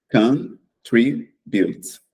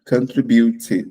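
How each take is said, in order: First: The word ends on the t, three syllables. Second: The final e is voiced as a fourth syllable. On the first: The speaker calls it right. "a gente tem três sílabas, na verdade, e não quatro" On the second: The speaker calls it wrong. "Só que não se fala contribute"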